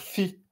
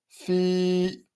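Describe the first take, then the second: First: The i vowel is short. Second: The i vowel is lengthened. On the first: The speaker calls it wrong. "on va pas dire fi" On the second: The speaker calls it right. "j'ai rajouté un petit i là"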